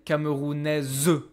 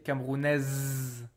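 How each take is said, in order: First: A final vowel is sounded after the z. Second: The word ends on the z with no vowel. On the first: The speaker calls it wrong. "I don't say Camerounais" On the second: The speaker calls it right. "I say Camerounais. ... I don't hear the E"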